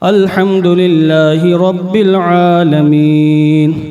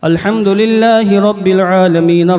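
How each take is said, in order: First: The phrase is recited at a moderate speed. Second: The phrase is recited at a fast speed. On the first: "इसमें स्पीड कुछ बढ़ जाती है।" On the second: "उसमें स्पीड तेज होती है।"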